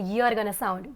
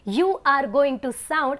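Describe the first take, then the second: First: The words are contracted and run together. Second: Every word is said fully and separately. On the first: The speaker calls it right. "I said you're gonna sound" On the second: The speaker calls it wrong. "Instead of saying"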